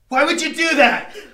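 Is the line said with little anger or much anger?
much anger. It is said with more anger.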